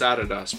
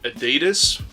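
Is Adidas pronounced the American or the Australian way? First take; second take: Australian; American. First: It is pronounced the Australian way. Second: It is pronounced the American way. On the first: The speaker calls it right. "but it's Adidas, bro" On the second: The speaker calls it wrong. "people in America call it Adidas"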